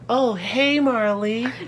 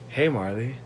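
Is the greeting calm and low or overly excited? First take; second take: excited; calm. First: It is said brightly with lots of excited energy. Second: It is said calmly in a low, deep voice. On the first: The greeter is thrilled to say hi. The speaker calls it wrong. "not like that" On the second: A casual, low-key greeting. The speaker calls it right. "your voice went really deep"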